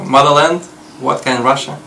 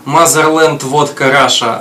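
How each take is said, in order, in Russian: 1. Звучит с почти родным английским акцентом. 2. Звучит с сильным русским акцентом. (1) "а" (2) "не как"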